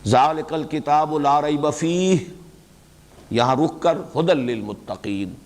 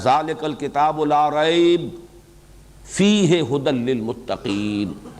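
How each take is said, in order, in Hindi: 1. 'fihi' के ठीक बाद रुकना है। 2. 'fihi' के ठीक बाद रुकना नहीं है।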